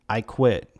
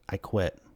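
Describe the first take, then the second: First: It is said a bit louder. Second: It is said quietly.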